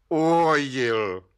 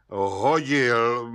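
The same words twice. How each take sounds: First: Slow, stubborn one-word answer; dogged. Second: Drawn-out, mulish answer in a put-on voice; stubborn mumble. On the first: Suspect refusing the judge's way out, doggedly. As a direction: stretch the word out, immovably obstinate. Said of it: "pravil Václav Lisický zarytě". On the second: Suspect answering the judge, mumbling with ram-like stubbornness. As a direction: mumble it doggedly, refusing to budge. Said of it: "mumlal Václav Lisický s beraní tvrdohlavostí". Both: A narrator's reading.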